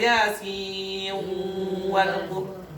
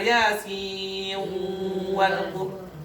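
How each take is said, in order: First: The n merges nasally into the following w. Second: The n merges nasally into the following w.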